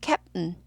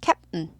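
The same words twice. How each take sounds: No difference in how they are said.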